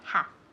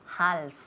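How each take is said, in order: First: The L sound is silent. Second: The L sound is pronounced. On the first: The speaker calls it right. "La L is muda. So we want to say half" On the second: The speaker calls it wrong. "please don't say half"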